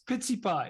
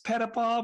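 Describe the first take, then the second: First: The name is said with a Quebec French accent. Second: The name is said with an English accent.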